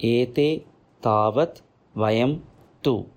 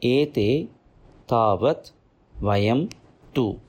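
The two takes are said the same way.

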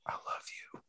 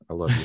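First: It is said in a soft whisper. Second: It is said in a normal, voiced tone.

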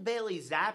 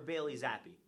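First: The surname ends on a consonant, one syllable. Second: The surname ends with an 'ee' vowel, two syllables. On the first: The speaker calls it right. "Is it Bailey Zapp" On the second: The speaker calls it wrong. "or Bailey Zappy?"

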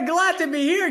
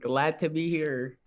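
First: It is said brightly, with lots of energy. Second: It is said flatly, with little energy. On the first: The speaker calls it right. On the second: The speaker calls it wrong.

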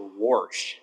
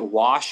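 First: The word is said with an R sound. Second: The word is said without an R sound.

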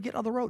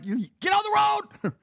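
First: It is said softly and gently. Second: It is said quickly and urgently. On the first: There is no real danger. The speaker calls it wrong. "You're not going, hey, I love you, little buddy" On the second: There is real danger right now. The speaker calls it right. "you're going to say something quick"

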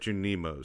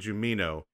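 First: The n sound comes before the m sound. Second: The m sound comes before the n sound. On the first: The speaker calls it right. "they're Junimos" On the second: The speaker calls it wrong. "I always say Jumino"

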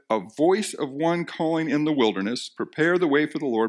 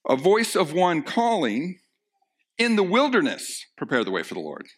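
First: The pause comes after 'in the wilderness'. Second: The pause comes before 'in the wilderness'.

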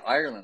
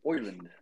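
First: It is said in a plain standard accent. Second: It is said in an Irish accent, starting with oi. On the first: "they don't say Ireland" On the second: "they say like Oiland"

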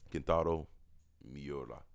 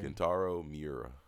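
First: The name is said with a Japanese-style accent. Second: The name is said with an American accent. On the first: The speaker calls it wrong. "Why you had to say it like that? / I fucked it up" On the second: The speaker calls it right. "We're Americans, Larry"

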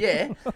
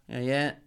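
First: It is said warmly, with more enthusiasm. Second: It is said flatly, with little enthusiasm. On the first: The speaker calls it right. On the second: The speaker calls it wrong.

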